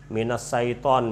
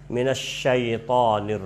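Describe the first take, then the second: First: The 'sy' sound is not a clear 'sh'. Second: The 'sy' sound is a clear, breathy 'sh'. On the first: The speaker calls it wrong. "ini tidak tepat" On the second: The speaker calls it right. "Harusnya minasyaitonir rajim"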